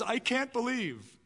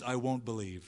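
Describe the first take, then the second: First: "can't" lifted high and drawn out slowly; doubt's voice. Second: "won't" set low and a bit softer, stubborn; unbelief's voice. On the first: Preacher voicing doubt, "can't" raised and slow. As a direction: lean on "can't", helpless and slow. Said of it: "Doubt says". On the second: Preacher voicing unbelief, "won't" low and firm. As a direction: drop low on "won't", a touch of refusal. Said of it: "Unbelief says". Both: Acted.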